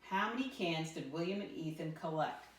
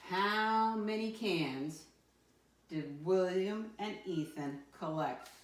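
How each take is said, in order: First: Said in the usual way. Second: Slow, drawn-out "How many cans" with weight on "how"; stress on how many. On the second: Shown as a demonstration. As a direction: lean hard on "How many" to flag the cue word. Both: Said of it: "That how many, my friends, cues me".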